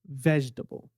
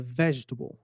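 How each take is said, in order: The two takes are said the same way.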